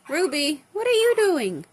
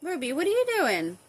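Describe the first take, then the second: First: Loud call to pet. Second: Said in the usual way. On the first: Real, not acted. Owner calling loudly to her bird Ruby.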